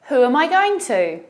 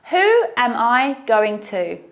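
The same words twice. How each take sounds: First: The sentence is spoken at a faster pace. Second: The sentence is spoken at a slower pace.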